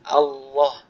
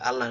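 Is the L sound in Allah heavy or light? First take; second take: heavy; light. First: The L sound is heavy and thick. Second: The L sound is light and thin. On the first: "Nah sekarang tinggal ditebalkan"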